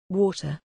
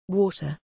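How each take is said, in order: Both takes have the same delivery.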